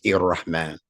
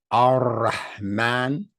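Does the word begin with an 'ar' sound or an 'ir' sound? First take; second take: ir; ar. First: It begins with a linked 'ir' sound. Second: It begins with a separate, full 'ar' sound. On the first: The phrase is run together as one continuous sound. The speaker calls it wrong. "If you don't separate it, then it becomes ir-Rahman" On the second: Each part is kept as a separate statement. The speaker calls it right. "If you separate it, then you have to pronounce the whole sound of that letter"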